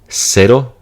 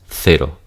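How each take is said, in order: First: The first consonant is an s sound. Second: The first consonant is a th sound. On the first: "seseo, ... It's just pronounced like an S" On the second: "Versus differentiation, there will be a lisp here"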